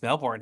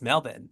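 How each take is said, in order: First: The second syllable has a strong, clear R. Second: The second syllable is reduced, almost like bun. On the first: The speaker calls it wrong. "I've been saying it wrong" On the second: The speaker calls it right. "it's Melbourne"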